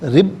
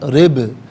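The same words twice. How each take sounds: First: The final b stops flat with no echo. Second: The final b bounces with a short echo. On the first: The speaker calls it wrong. "रिब नहीं" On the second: The speaker calls it right. "आवाज़ लौटती भी महसूस हो"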